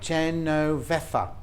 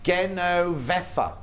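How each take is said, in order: First: The name starts with a soft J sound. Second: The name starts with a hard G sound. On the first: The speaker calls it wrong. "not Jen" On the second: The speaker calls it right. "No, golf. Oh, yeah, so G"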